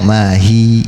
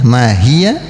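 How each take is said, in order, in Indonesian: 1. Frasa itu berakhir pada vokal akhir yang dipanjangkan. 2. Frasa itu berakhir dengan suku kata ya yang pendek. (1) "tapi kita waqafkan maka dia berubah menjadi mad ya, mati berarti panjang" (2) "karena ada huruf ya"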